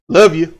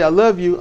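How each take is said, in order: First: It is said harshly and curtly. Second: It is said tenderly and warmly.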